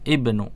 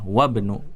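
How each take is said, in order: First: The word begins with a spoken 'i' vowel. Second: The 'i' vowel is skipped, joining 'wa' to 'bnu'. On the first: The word stands at the start. "Kalau di awal dia dibaca ibnu" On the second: Another letter comes before it. "Kalau di tengah tadi ada huruf sebelumnya nggak dibaca, dilewatin"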